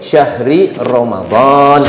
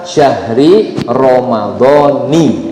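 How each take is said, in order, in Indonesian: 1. Ramadan berakhir pada konsonan, tanpa vokal akhir. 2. Ramadan berakhir dengan suku kata 'ni'. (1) "kalau mau diwakafkan boleh" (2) "Yang salah apa? ... kalau disebut ni itu malah salah"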